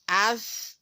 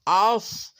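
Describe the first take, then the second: First: The sound is thin, made at the front. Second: The sound is heavy, with the tongue raised. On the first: The speaker calls it right. "jadi suara keluar sini" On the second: The speaker calls it wrong. "Tidak boleh as, is, us. Nah, nanti lidahnya seperti ini"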